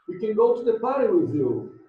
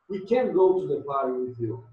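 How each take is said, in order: First: The word can is unstressed and weak. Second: The word can is stressed and strong.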